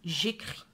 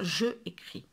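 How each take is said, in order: First: The vowel of je is dropped before écris. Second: The vowel of je is kept before écris. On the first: The speaker calls it right. "j'enlève la première voyelle et je mets à la place une petite apostrophe" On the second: The speaker calls it wrong. "C'est un petit peu lourd à dire"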